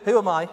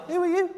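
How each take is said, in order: First: Said in the usual way. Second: Very high Scouse voice; comic Scouse squeak; Scouse accent. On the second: Acted. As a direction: answer back in a high, put-on Scouse accent. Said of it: "read this with a Scouse accent".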